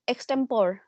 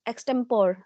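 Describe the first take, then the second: No difference in how they are said.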